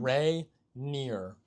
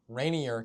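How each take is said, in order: First: It sounds like 'ray' plus 'near'. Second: It sounds like 'rainy' plus 'er'. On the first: It names the mountain. The speaker calls it right. "the mountain is rainier. Ray near" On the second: It means more rainy. The speaker calls it wrong. "like as in like it's rainier today outside"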